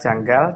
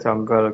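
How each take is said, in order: First: The vowels are pronounced as a. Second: The vowels are pronounced as o. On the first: This is how the name is written. "dalam penulisannya itu harusnya kan janggal A" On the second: This is how the name is read in Old Javanese. "dalam bahasa Kawi itu A itu dibaca O"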